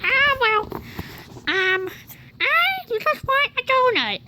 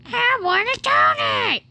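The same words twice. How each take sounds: First: Lightly higher voiced dog. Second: Higher pleading pet voice; whiny dog voice. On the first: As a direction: speak for the dog, a bit higher. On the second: Pretend. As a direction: beg like a greedy dog. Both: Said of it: "what are your thoughts right now".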